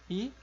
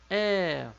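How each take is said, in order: First: The vowel is slightly less open and marked. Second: The vowel is slightly more open and marked. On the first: "É como se fosse uma diferença de E" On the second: "Vejam que ele é só um pouco mais marcado"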